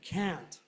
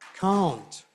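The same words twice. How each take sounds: First: It is said in a North American accent. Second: It is said in a non-North American accent.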